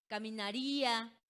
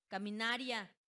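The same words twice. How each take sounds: First: Caminaría with a long stressed RÍ, "ca-mi-na-RÍ-a"; hiatus example. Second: Caminaria said as "ca-mi-NA-rya"; diphthong mispronunciation. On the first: Teacher giving examples of the rule, stressed hiatus. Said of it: "Por ejemplo". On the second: Teacher showing the unaccented word to pupils, diphthong. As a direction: stress NA in caminaria, gliding ria together. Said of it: "pronunciaríamos como". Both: Shown as a demonstration.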